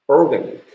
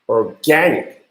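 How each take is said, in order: First: The stress falls on the first syllable. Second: The stress falls after the first syllable. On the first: The speaker calls it wrong. "maybe you would try to pronounce this as organic" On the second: The speaker calls it right. "That accent is not top here. In fact, organic is correct accent"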